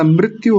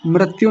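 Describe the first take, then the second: First: मृत्यु as mrit-yu; right मृत्यु. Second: मृत्यु as mrat-yu; wrong मृत्यु. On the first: Teacher giving the correction, mrit-yu for मृत्यु. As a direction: use a short ri in मृत्यु. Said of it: "मृत्यु होता है". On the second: Teacher rejecting the common error, mrat-yu for मृत्यु. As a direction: use a wrong ra sound in मृत्यु. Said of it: "मृत्यु नहीं होता". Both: Shown as a demonstration.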